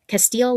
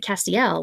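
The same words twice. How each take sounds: First: "Castile", ending like "steel"; first guess pronunciation. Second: "Castiel", ending in "ee-EL"; second try, "Cas-tee-EL"; alternative pronunciation. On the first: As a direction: say the name as "Castile". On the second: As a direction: say the name as "Castiel", three syllables. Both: Shown as a demonstration. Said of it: "or is it Castiel".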